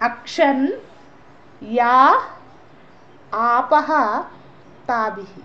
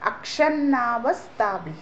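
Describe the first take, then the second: First: The words are said as separate words. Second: The words are run together as one word.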